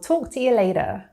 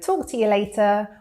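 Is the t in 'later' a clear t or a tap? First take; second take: tap; clear t. First: The t in later is a quick tap. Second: The t in later is a clear t.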